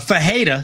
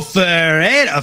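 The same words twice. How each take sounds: First: The double R is said as an H sound. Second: The double R is said as an R sound. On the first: The speaker calls it right. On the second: The speaker calls it wrong.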